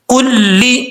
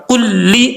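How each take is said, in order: Both takes have the same delivery.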